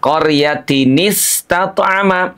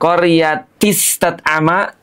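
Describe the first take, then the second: First: An added n with a vowel precedes the s. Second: The n sound before the s is dropped. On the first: The speaker calls it right. "dihidupkan dengan menambah harokat menjadi qaryatini" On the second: The speaker calls it wrong. "tentu tidak dibaca demikian"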